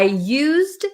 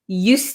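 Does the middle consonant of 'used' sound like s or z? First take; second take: z; s. First: The middle consonant is a voiced z sound. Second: The middle consonant is a voiceless s sound. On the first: Something was used already. "It's going to have a Z sound" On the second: Something was a past habit. "it's not going to be a Z sound, it's going to be an S sound"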